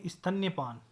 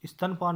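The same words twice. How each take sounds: First: स्तन्यपान with 'nya' sounded; correct pronunciation. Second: स्तनपान with plain 'stan'; wrong pronunciation. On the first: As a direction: put य after न in स्तन्यपान. (स्तन्यपान में न्य का साफ़ उच्चारण) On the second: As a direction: say स्तनपान without य. (स्तनपान, य के बिना) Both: Shown as a demonstration. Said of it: "स्तनपान नहीं".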